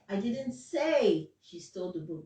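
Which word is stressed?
say. The word say carries the main stress. It was conveyed another way, not said aloud. "That means I gave you a sign or I wrote it"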